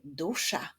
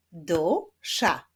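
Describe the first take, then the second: First: Said in the usual way. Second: "Dusza" as two separated syllables; split into syllables. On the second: Shown as a demonstration. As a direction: sound out "Dusza" beat by beat. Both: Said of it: "wyklaszczmy sylaby w wyrazie".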